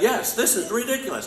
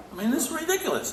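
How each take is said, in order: First: "this is ridiculous" said much higher and a bit louder, as a model reply; prompted crowd answer. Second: Ridiculous. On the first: Shown as a demonstration. Teacher to audience, a lively model reply. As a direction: give the crowd the answer to shout back. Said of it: "You should all say". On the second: Real, not acted. Speaker exclaims at the news.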